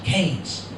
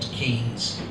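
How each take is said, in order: First: The name is pronounced the local village way. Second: The name is pronounced as it is spelled. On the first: This is how the villagers say the name. "here in the village, we prefer to pronounce it Keynes" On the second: This is how the name is written. "I know it's spelled Keynes"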